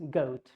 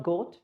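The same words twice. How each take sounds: First: Goat gliding from O to U; OU diphthong. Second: Goat with a plain short O; flat O. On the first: Teacher showing the right goat. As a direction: say goat with a clear OU glide. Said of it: "it's goat". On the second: Teacher showing the wrong goat. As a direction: say goat without the glide. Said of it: "it's not goat". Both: Shown as a demonstration.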